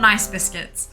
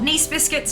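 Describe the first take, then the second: First: The first word rhymes with rice. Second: The first word rhymes with geese. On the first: The name is read as the ordinary adjective. The speaker calls it wrong. "not nice biscuits" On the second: The name refers to the French city. The speaker calls it right. "pronounced the same as that city"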